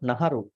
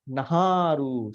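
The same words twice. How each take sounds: First: The A vowel is said short. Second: The A vowel is said long. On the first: The speaker calls it wrong. "not Naharu" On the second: The speaker calls it right. "there's a long A"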